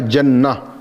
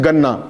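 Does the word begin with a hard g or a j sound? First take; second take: j; hard g. First: It begins with a j sound, standard Arabic. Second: It begins with a hard g, Egyptian style.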